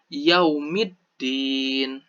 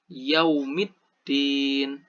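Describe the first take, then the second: First: The L merges into a doubled D sound. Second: The L merges into a doubled D sound.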